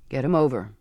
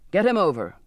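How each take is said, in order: First: Said in the usual way. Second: Louder, clipped impatient order; impatient repeat. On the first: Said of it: "the captain said finally". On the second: A narrator's reading. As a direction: lose patience as you repeat the command. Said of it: "the captain repeated with impatience".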